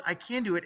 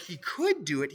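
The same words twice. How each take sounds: First: "can" said firm and certain; "I can do it" with "can" stressed as resolve. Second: Said in the usual way. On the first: Shown as a demonstration. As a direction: lean on "can" as a promise. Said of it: "he doesn't even say, like, he could do it". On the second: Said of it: "he doesn't even say".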